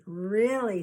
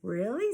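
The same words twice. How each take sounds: First: A warm, falling "Really" from the quilter; reassuring. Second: Put-on a hopeful rising "Really?" from the girl ghost; hopeful question. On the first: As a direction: settle her doubts kindly. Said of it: "smiled Miss, Missus Butterrum". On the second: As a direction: ask it hoping it's true. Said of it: "smiled Patches". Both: A narrator's reading.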